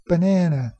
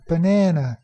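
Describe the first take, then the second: The two takes are said the same way.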